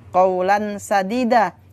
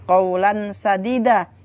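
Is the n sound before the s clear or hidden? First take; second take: clear; clear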